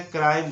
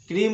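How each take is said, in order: First: क्राइम with an "eye" vowel; correct crime. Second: क्रीम with an "ee" vowel; wrong ee crime. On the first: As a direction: say क्राइम to rhyme with "time". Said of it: "क्राइम बोलना है". (क्राइम में आइ की ध्वनि) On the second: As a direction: say क्रीम like English "cream". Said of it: "क्रीम नहीं बोलना है". (क्रीम में ई की ध्वनि) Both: Shown as a demonstration.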